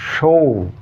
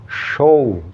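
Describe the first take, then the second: No difference in how they are said.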